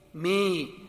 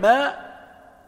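First: The vowel is between a and i. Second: The vowel is a clear open a. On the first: "لا ما ولا مي ... هذه إمالة" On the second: "فالفتح ما"

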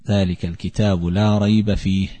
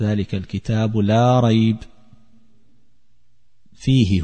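First: The pause falls after the word fihi. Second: The pause falls after the word rayb. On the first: The book is free of doubt, and all of it is guidance. "ثم تقف بعد فيه" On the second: The book is free of doubt, and it contains guidance. "وعلى الموضع الثاني في الوقف"

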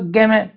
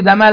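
First: The name is said in a Cairo dialect. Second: The name is said in a village dialect. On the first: "القاهرة يقول لك جمال" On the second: "بعض القرى ... يقلب الجيم ده"

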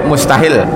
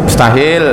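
The two takes are said the same way.

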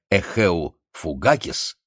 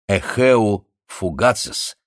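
First: The c in fugaces is said as k. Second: The c in fugaces is said as ts. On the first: "декламировать как «эхеу фугакис» — бррр, никогда" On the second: "которых учили по-гимназически «цекать»"

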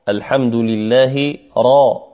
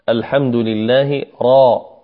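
Both takes have the same delivery.

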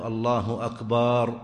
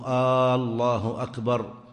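First: The vowel after the b in akbar is lengthened. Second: The opening vowel of akbar is lengthened. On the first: The word becomes a plural meaning drums. "يمد الباء في أكبر" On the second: The statement becomes a question. "أن يمد الهمزة"

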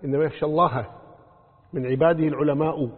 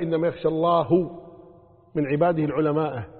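First: 'Allah' ends in a, 'scholars' ends in u. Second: 'Allah' ends in u, 'scholars' ends in a. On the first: The scholars are the ones who fear God. The speaker calls it right. "وإنما المقصود أن العلماء هم الذين يخشون الله جل وعلا" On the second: God is the one who fears the scholars. The speaker calls it wrong. "فجعل الله هو الذي يخشاهم، هذا لحن جلي ويغير المعنى"

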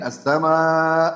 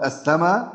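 First: The final long vowel is held for four counts. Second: The final long vowel is held for two counts.

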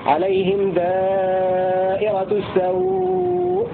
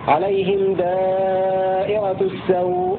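First: The vowel before the final hamza is held moderately. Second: The vowel before the final hamza is held briefly. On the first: "4 حركات" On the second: "2 حركات"

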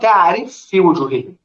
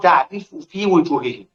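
First: The two f sounds merge with no vowel between. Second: A faint partial vowel is heard after the first f. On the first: "هي الإدغام" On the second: "طب الروم"

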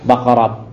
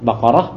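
First: The word ends with a t sound. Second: The word ends with an h sound. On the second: "mewaqafkannya dengan ha"

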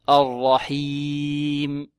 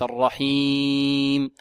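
First: The word is said without nasal resonance. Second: The word is said with nasal resonance. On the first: The speaker calls it right. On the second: The speaker calls it wrong.

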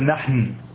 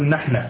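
First: The word ends with no final vowel. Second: The word ends in a short a vowel. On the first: "لم أقل نحن" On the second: "وهو عند اللبنانيين مبني على الفتح، يقول نحن"

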